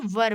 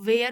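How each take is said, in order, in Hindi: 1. इस शब्द में छोटी 'er' स्वर ध्वनि है। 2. यह शब्द 'air' जैसा तुकांत है, जैसे 'where'। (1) "ये वर बोला जाता है" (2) "जो बिल्कुल गलत प्रोनाउंसिएशन है"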